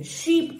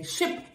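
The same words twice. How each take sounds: First: "शीप" with a long high ee; long vowel. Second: "शिप" with a short i; short vowel. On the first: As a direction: stretch the ee in "शीप". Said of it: "S H double E P है". ("शीप" लंबी ई के साथ) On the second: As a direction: keep the i in "शिप" brief. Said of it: "S H I P है". ("शिप" छोटी इ के साथ) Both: Shown as a demonstration.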